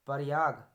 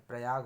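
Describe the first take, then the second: First: प्रयाग said loudly as 'pa-ri-yaag'; extra vowel. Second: Said in the usual way. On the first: Shown as a demonstration. Teacher showing a mistake, प्रयाग split 'par-yaag', loud. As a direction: break the 'pr' of प्रयाग with a vowel. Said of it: "गलत है". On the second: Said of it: "होता है".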